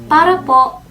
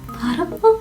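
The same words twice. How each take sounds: First: It is said plainly and confidently. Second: It is said shyly and embarrassed.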